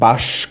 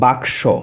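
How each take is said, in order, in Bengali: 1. s ধ্বনিটি k ধ্বনির আগে আসে। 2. k ধ্বনিটি s ধ্বনির আগে আসে। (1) "শটা আগে চলে আসলো, কটা পরে চলে গেল" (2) "ক আগে স পরে"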